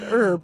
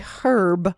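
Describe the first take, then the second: First: The word begins with no h sound. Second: The word begins with a voiced h sound. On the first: This is how the speakers' own group says it. "not herb" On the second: This is how people in Europe say it. "they add the H back"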